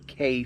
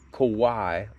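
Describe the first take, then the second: First: The word is said like the letter K. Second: The word is said like 'Kawhi'. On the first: The speaker calls it right. "I've heard it called the K fifty-four" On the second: The speaker calls it wrong. "like Kawhi Leonard, which I'm pretty sure that's not right"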